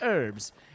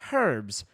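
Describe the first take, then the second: First: The word starts without an h sound. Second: The word starts with an h sound. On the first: This is the American pronunciation. "they say it herbs" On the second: This is the British pronunciation. "the British people say it herbs because there's the fucking H in it"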